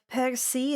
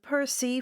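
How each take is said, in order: First: The name gets its Halmaharan pronunciation. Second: The name gets its usual English pronunciation.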